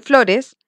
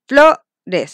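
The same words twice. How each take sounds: First: Said in the usual way. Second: "flores" split up, with FLO loud and held; stress on the tonic syllable. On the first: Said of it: "La sílaba tónica es donde se marca". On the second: Shown as a demonstration. Teacher shows pupils the tonic syllable, stressing FLO in "flores". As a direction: punch the FLO in "flores", then let "res" drop. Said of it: "se marca en la O".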